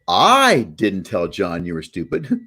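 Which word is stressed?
I. The stress is on I.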